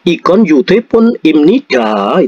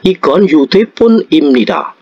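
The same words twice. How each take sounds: First: The pitch rises at the end. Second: The pitch falls at the end. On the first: It tries to ask whether this is a phone. The speaker calls it wrong. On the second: It states that this is a phone. The speaker calls it right.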